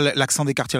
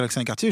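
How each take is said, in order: First: A quick, lightly mocking quote of what people say; quick mock quote of a cliché; quoting people dismissively. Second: Said in the usual way. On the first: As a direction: toss off the cliché as others say it. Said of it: "quand les gens disent". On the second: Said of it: "je dis".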